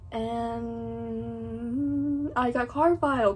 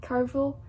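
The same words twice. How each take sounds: First: Carville drawn out slowly, unsure; slow hesitant Carville; unsure pronunciation. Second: Quick clipped Carville; trying pronunciation. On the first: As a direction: stretch Carville while unsure how to say it. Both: Real, not acted. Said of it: "I don't know how I pronounce that word".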